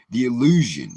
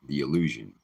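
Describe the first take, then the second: First: "illusion" hit high and loud; emphatic stress. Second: "illusion" repeated low and measured after a pause; emphatic repeat. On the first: Warning listeners about the illusion of empathy, emphatic. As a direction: punch "illusion" with raised pitch and volume. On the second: Repeating the illusion so listeners catch it, understated emphasis. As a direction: set "illusion" apart, without raising the voice. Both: Real, not acted. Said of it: "I wanna emphasize the word illusion".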